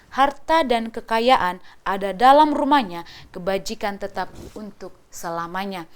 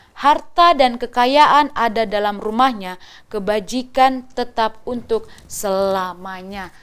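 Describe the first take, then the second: No difference in how they are said.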